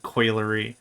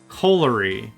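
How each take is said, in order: First: The first syllable sounds like coil. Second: The first syllable sounds like coal. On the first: The speaker calls it wrong. "I mispronounced it. I said coilery. Like you're making wire coils" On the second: The speaker calls it right. "A coalery and a coilery are two separate things"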